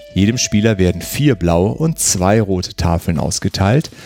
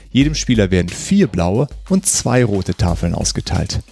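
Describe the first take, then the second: The two takes are said the same way.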